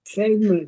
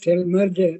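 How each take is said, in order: First: The name ends without a 'j' sound. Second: The name ends with a 'j' sound. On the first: The speaker calls it right. "that pronunciation of that is Selmer" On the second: The speaker calls it wrong. "It's not known as Selmerger"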